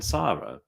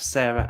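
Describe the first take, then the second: First: "Sarah" as SAH-ruh, first vowel as in "car"; Sarah without H. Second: "Sarah" as SAIR-uh, first vowel as in "air". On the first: Asking Americans about two name forms, "Sarah" as SAH-ruh. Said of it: "S A R A is Sarah". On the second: Asking Americans about two name forms, "Sarah" as SAIR-uh. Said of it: "You've got Sarah with a H". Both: Shown as a demonstration.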